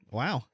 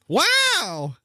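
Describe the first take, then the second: First: It is said flat and low-energy. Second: It is said with lively enthusiasm.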